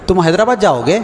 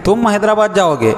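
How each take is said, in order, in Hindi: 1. यह सच्चे और ईमानदार सवाल के तौर पर कहा गया है। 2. यह व्यंग्य और तंज़ भरे लहजे में कहा गया है। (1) "इस्तिफ़हामिया जुमला" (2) "ये लफ्ज़ अगर इस्तेमाल किया गया तो तंजिया जुमला"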